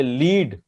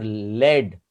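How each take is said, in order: First: लीड said with long ee, "leed"; lead as leed. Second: लेड drawn out slowly as "led", short e. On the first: Teacher contrasting two readings, लीड with long ee. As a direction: stretch the ee in लीड. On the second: Teacher contrasting two readings, slow लेड for the metal. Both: Shown as a demonstration. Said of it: "ये वाला बोलो तो ये metal".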